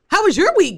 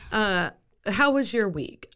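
First: It is said with lively, upbeat energy. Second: It is said with low, flat energy. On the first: "let me pep it up" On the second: "I'm sorry, let me pep it up"

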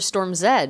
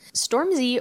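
First: The letter Z is said the British way. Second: The letter Z is said the American way.

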